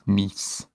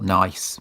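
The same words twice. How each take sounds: First: The vowel sounds like the one in 'piece'. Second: The vowel sounds like the one in 'ice'. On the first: This is how the place name is actually said. The speaker calls it right. "but it's pronounced Nice" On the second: This is how the spelling reads. The speaker calls it wrong. "It's spelt nice"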